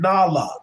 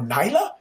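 First: The name is said with its African vowels. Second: The name is said with a changed vowel. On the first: This is how the name is meant to sound. The speaker calls it right. "like the African pronunciation" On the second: Someone unfamiliar with the name said it. The speaker calls it wrong. "they go Nyla"

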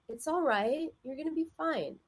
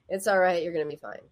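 First: The words are said in a warm, gentle tone. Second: The words are said in a curt, dismissive tone. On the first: The comfort is sincerely meant. The speaker calls it right. "It has a totally different feeling" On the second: The comfort is not really meant. The speaker calls it wrong. "that just doesn't help. That is just not encouraging at all"

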